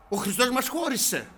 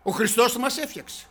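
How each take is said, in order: First: Χώρισε hit high and loud, then a falling tune; stress on χώρισε. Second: Χριστός raised high and hit hard, falling after; stress on Χριστός. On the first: Preacher accusing the church of division, stressing χώρισε. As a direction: punch the word χώρισε. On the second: Preacher contrasting what Christ did, stressing Χριστός. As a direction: lean on Χριστός. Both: Shown as a demonstration.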